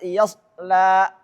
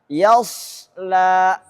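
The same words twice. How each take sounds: First: The s sound is short with no whistle. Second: The s sound is held with a whistle. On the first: The speaker calls it wrong. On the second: The speaker calls it right.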